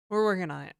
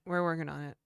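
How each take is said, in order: First: Quick laughing reply. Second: Said in the usual way. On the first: Real, not acted. Laughing while defending broken code.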